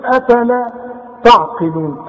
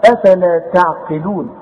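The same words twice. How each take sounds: First: "أفلا تعقلون" with thick back "ta'"; wrong heavy ta. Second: Slow "أفلا تعقلون", thin "ta'", heavy only on qaf; light ta and ayn. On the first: Teacher shows what not to say, heavy letters. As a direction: say "تعقلون" heavy from the start, as the mistake. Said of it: "فما تقولش". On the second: Teacher gives correct reading, light ta and ayn. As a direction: recite "أفلا تعقلون" slowly with light front vowels. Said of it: "الته والعين ترقق". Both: Shown as a demonstration.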